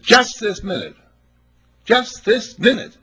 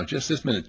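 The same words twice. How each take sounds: First: Higher and louder each time, slowing at the end; building emphasis. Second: Said in the usual way. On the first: Retold or imitated. Preacher to congregation, repeating the ticket lady with rising emphasis.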